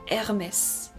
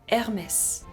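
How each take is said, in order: No difference in how they are said.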